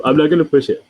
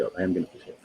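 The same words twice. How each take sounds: First: Said in the usual way. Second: Low, soft decision on "I am gonna push it"; quiet resolve. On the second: Real, not acted. Host changing their mind about prodding, quiet resolve.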